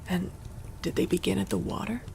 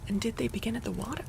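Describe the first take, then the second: First: It is read in a lower character voice. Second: It is read in a higher character voice. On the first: Another character is speaking. The speaker calls it wrong. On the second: The reporter is speaking. The speaker calls it right.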